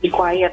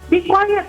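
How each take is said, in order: First: It is said softly and calmly. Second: It is said loudly and harshly. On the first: The children are invited to copy the quietness. The speaker calls it right. "yang tenang dan quiet gitu" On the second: The children end up getting noisier. The speaker calls it wrong. "jangan kita be quiet gitu ya"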